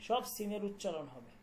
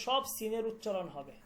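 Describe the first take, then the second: No difference in how they are said.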